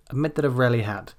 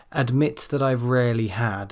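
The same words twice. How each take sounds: First: "admit that I've rarely had" run fast into one word, vowels reduced; fast linked "admit that I've rarely had" with only "admit" stressed; connected speech. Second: Each word "admit that I've rarely had" given full stress; "admit that I've rarely had" with each word stressed separately; careful word by word. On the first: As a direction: blur "admit that I've rarely had" together quickly, with "that" and "had" as weak schwas. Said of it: "combined into one word". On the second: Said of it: "that will come across as". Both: Shown as a demonstration.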